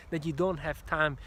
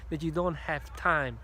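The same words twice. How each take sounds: The two takes are said the same way.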